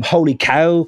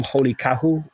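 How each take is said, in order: First: Said in the usual way. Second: "holy cahu" with cow stretched into two syllables, ca-hu; Irish source pronunciation. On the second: Shown as a demonstration. Host showing where holy cow comes from, "holy cahu" as Irish ca-hu. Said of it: "comes from".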